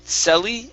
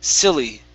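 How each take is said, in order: First: The first vowel sounds like in 'sell'. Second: The first vowel sounds like in 'sill'. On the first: The speaker calls it wrong. "Instead of sell, selly" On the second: The speaker calls it right. "it's sill, silly"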